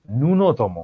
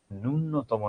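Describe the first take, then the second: First: "ন্যূনতম" slowly as "nu-notomo", single n; correct pronunciation. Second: "ন্যূনতম" slowly as "nun-notomo", doubled n; slow "nunnotomo" for "ন্যূনতম"; wrong pronunciation. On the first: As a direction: keep just one n in "ন্যূনতম". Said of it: "এটার উচ্চারণ". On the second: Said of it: "নয় রে বাবা". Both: Shown as a demonstration.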